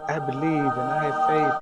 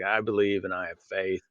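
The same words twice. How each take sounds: First: It is said in a mocking, condescending tone. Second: It is said in a plain, neutral tone.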